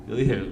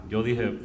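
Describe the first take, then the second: No difference in how they are said.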